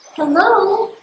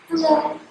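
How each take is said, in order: First: Hello sounds like a searching, questioning call. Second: Hello sounds cold and unfriendly. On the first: Checking whether someone is listening. "how are you going to say hello to know if someone is listening?" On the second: Greeting someone who is disliked. "how about a neighbor you don't like?"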